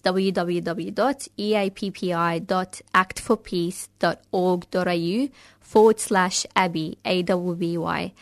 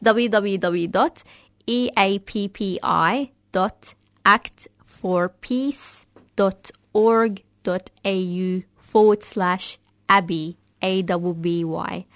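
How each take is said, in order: First: It is said fast. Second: It is said slowly.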